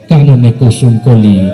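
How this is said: It is recited fiercely, like someone picking a fight.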